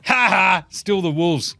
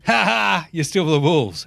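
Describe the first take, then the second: First: Lightly taunting cackle of the basketball gods; a hint of gleeful mockery; teasing the Wolves from on high; mocking gods. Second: Lightly taunting cackle of the basketball gods; a hint of gleeful mockery; mocking gods. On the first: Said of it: "the basketball gods are going". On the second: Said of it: "everyone just going".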